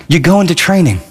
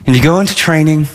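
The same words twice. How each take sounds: First: You GO into training, go stressed. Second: Into given the weight; you go INTO training, into stressed. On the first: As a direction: go pushed firmly. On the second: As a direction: lean on the word into. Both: Shown as a demonstration. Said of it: "repeated for emphasis".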